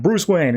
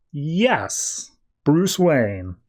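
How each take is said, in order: First: Higher, brisk mock-delighted greeting; greeting by name. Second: Stretched yes, then the name said carefully; mock-unsure, playing along with the name; hesitant bluffing. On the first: Gala guest spots the host arriving, brightly greeting him. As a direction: call the name out in lightly acted recognition. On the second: Batman with no memory confirms his name, hesitantly bluffing.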